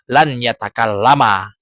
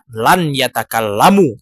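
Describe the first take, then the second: First: The verb ends with a final 'a' vowel. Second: The verb ends with a final 'u' vowel. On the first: The speaker calls it right. "tetapi lan yatakallama" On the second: The speaker calls it wrong. "dia tidak dibaca lan yatakallamu"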